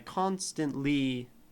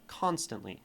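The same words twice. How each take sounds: First: The stress falls on the last syllable, li. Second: The stress falls on the first syllable, con. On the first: The speaker calls it wrong. "it is just a little forced. Like, li is not where we would put stress on constantly" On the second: The speaker calls it right. "say it like normal"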